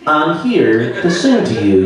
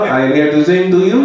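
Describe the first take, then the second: First: Spoken in an overly careful, plain American voice. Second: Spoken with a put-on French accent. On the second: "with a French accent"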